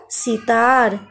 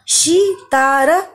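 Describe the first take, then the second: First: Said in the usual way. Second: "सितार" in slow separate syllables; sounded out. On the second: Shown as a demonstration. Teacher revises short vowel words, sounded out slowly. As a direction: stretch out each sound of "सितार".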